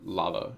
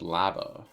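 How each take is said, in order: First: Lava is said with a non-Canadian pronunciation. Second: Lava is said with a Canadian-style pronunciation.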